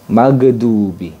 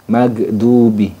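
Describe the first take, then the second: No difference in how they are said.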